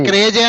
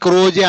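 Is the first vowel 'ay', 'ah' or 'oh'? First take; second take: ay; oh. First: The first vowel sounds like 'ay'. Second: The first vowel sounds like 'oh'. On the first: The speaker calls it right. "ఎవరైనా క్రేజీ అనే పలుకుతారు" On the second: The speaker calls it wrong. "క్రాజీ క్రోజీ అని ఎవరు అనరు"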